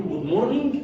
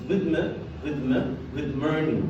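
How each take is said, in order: First: Good morning with the d cut off from morning; wrong pronunciation. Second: Good morning with the d run straight into morning, slow; linked pronunciation. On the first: Teacher shows the common mistake: wrong way. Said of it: "بتنطقها غلط". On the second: Teacher shows the right way: slow linked drill. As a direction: link good into morning, drop the g, slowly. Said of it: "بنربطها ربطه سليمه واحده بس". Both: Shown as a demonstration.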